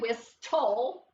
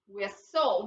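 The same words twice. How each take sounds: First: The T sound in the middle is pronounced. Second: The T sound in the middle is silent. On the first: The speaker calls it wrong. "you pronounce it the first way, whistle. That's not right" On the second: The speaker calls it right. "We'll cross out the T because we don't hear it"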